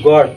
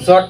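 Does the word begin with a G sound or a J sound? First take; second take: G; J. First: The word begins with a hard G sound. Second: The word begins with a J sound. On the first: The speaker calls it right. "এইটো গড।" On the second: The speaker calls it wrong. "ইয়াত কিন্তু জট কলে ভুল হব নহয়।"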